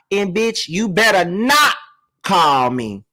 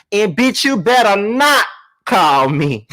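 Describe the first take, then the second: First: Said in the usual way. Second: Second read, slamming the not; stress on not. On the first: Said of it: "I gotta say it one more time". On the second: Shown as a demonstration. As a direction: lean hard on not, a little louder, as if printed in bold capitals. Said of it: "not" in big bold letters".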